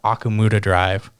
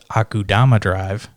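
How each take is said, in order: First: The middle syllables are said as ku-mu-da. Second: The middle syllables are said as ku-da-ma. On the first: The speaker calls it wrong. "I called uh, Akumuda Drive" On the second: The speaker calls it right. "It's actually pronounced Akudama Drive"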